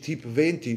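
Type is pronounced the French way. "lo dici magari alla francese"

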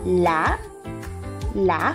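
The word is split into separate syllables.

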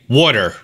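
The middle sounds like a soft d. "we say water. W-A-D-D-E-R"

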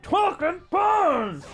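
The voice sounds garbled and distorted. "it sounds all distorted"

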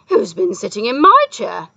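It is said in a howling voice.

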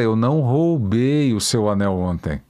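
Emphasis is marked by a word in another rhythm. "essa palavra lida numa, num outro ritmo"

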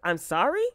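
The voice rises at the end, like a question.

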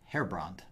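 The name is said with an English pronunciation. "most people resort to the anglicized version"

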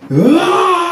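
It is a shrill scream.

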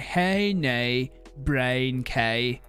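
It is said in a Northern Irish accent. "if you want to do a Northern Irish, Northern Irish accent, you say"

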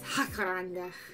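It is said in an exaggerated Spanish accent. "Unless it's Mexican, it's Jacaranda. I apologize to all the Spanish speakers out there. That was for humor purposes only"

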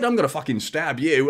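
It is spoken in an Australian accent. The threat sounds harmless and lovable. "But if you say it as an Aussie"

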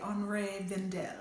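The name is said with a French accent. "as the French say"

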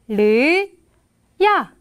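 The two syllables are said slowly with a gap. "잘 들어보세요"

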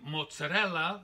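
It is said with an Italian pronunciation.

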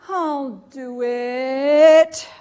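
It sounds frightened.

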